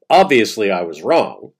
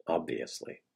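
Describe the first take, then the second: First: A louder, lightly voiced Todd admitting he was wrong; quoting Todd. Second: Soft, lower, sardonic "Obviously"; dry echo. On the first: Narrator reads Todd's quote louder, half in his voice. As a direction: read the quote out louder, as Todd's own confession. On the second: Real, not acted. Narrator mocks Todd's quote with a softer, dry echo. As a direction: let "Obviously" drop away, softer, with a dry sarcastic edge.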